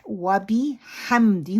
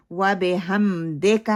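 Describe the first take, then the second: First: وَبِحَمْدِ with clear short i in bi and di; careful model of وَبِحَمْدِ; correct vowels. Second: وَبِحَمْدِكَ as "wabe-hamdeka", i turned to e; wrong majhool وَبِحَمْدِكَ; common mistake. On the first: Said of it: "ہونا چاہیے تھا نا". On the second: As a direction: mimic slackened vowels in وَبِحَمْدِكَ. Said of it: "ہم پڑھتے ہیں". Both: Shown as a demonstration.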